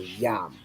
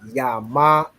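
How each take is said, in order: First: The syllable ends on the m sound. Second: The syllable ends with a full ah vowel. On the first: The speaker calls it right. "The A is dropped off from the ma" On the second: The speaker calls it wrong. "So it's not yama"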